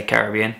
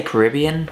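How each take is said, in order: First: "Caribbean" stressed on BE, ca-rib-BE-an; own usual Caribbean. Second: "Caribbean" stressed on the second syllable, ca-RIB-ean; other people's Caribbean. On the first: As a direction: say "Caribbean" with the main stress on the third syllable. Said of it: "I always say Caribbean". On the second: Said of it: "Some people say Caribbean". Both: Shown as a demonstration.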